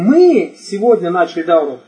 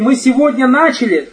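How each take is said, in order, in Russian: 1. Ударение падает на слово мы. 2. Ударение падает на слово начали. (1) "То есть речь идет о ком? О нас" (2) "То, что мы ее не заканчиваем. И только начали"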